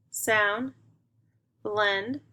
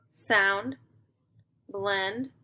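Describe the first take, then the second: No difference in how they are said.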